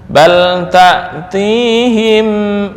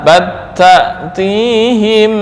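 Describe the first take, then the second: First: The l is kept clear before the t. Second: The l merges fully into the following t.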